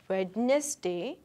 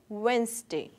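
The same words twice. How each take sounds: First: A d sound is pronounced in the middle. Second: No d sound is pronounced in the middle. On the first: The speaker calls it wrong. "We do not say Wednesday" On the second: The speaker calls it right. "this D is silent here. ... we say Wednesday"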